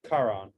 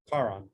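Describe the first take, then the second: The two takes are said the same way.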